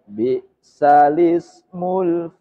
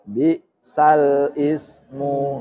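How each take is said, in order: First: The l joins the vowel, saying 'lismu'. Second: The l stays separate and 'ismu' starts anew. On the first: The speaker calls it right. "mestinya bi salismul fusuku ba'dal iman. Bacaan nakel" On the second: The speaker calls it wrong. "ini seringkali terjadi salah ucap. Bi sal ismu menjadi begitu"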